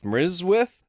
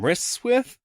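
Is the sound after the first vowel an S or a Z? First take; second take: Z; S. First: The middle consonant is a buzzing Z sound. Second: The middle consonant is a hissing S sound. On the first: The speaker calls it right. "it's Mrizwith" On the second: The speaker calls it wrong. "It's not"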